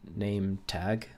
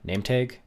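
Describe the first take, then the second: First: The vowels are said in a non-Canadian way. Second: The vowels are said in a Canadian way. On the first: "y'all want me to pronounce it name tag like that" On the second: "I think it's a Canadian thing"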